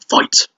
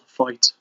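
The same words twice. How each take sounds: First: The word is said with excited, exclaiming energy. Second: The word is said flatly, without excitement.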